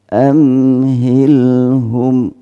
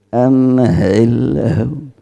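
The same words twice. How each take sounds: First: The h sound is light and unforced. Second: The h sound is heavy and forced. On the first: The speaker calls it right. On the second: The speaker calls it wrong.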